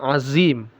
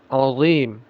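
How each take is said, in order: First: The middle consonant is a plain light z. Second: The middle consonant is a thick, heavy th-like sound. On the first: The speaker calls it wrong. "sering dibaca makhrajnya ini sebagai makhraj zai ... Jangan dibaca azim" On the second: The speaker calls it right. "makhrajnya sama dengan zal ... tapi dia tebal ... tapi dibaca azim"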